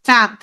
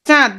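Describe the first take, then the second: First: It is said with the nose pinched shut. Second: It is said with the nose open. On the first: "দেখো আমি নাক বন্ধ করি" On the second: "যেমন আমি বললাম চাঁদ"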